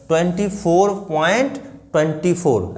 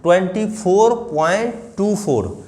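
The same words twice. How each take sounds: First: twenty four point twenty four, decimals read as one number; the mistaken way, twenty four after the point; teacher showing the wrong reading of twenty four point twenty four. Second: twenty four point two four, each digit after the point said on its own; teacher modelling the right reading of twenty four point two four; digits read singly. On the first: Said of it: "ऐसे नहीं बोलेंगे". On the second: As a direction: read the decimals one by one, two four. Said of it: "तो आप बोलोगे". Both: Shown as a demonstration.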